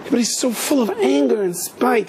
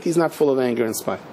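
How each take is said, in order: First: High-pitched mock complaint; imitated protest, pitched well up; indignant accusation. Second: Imitated rabbi gently contradicting; calm correction. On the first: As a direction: play a scandalized follower accusing someone. Followers' complaint before rabbi's calm answer. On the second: Rabbi's calm answer to the complaint.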